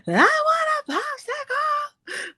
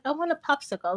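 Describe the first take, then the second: First: Put-on high, slow, crying toddler whine; whining toddler. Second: Said in the usual way. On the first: Little daughter begging mom for a popsicle, high crying whine. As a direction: drag it out like a little girl about to cry. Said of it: "And she'll be like". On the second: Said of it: "she'll be like".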